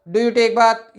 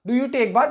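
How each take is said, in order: First: It is said flatly, lifeless like a ghost. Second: It is said in a lively, expressive way.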